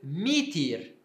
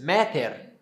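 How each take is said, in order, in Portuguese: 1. Ambas as vogais soam como 'i'. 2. As vogais soam como 'a' e 'e'. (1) "em grego koiné, na pronúncia do grego koiné" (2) "como seria antes?"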